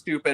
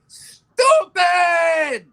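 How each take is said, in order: First: The word is said at a normal, calm volume. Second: The word is screamed loudly and forcefully. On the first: It is an ordinary criticism. "it's not just stupid" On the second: It is a much stronger, over-the-top criticism. "screamed and yelled like that"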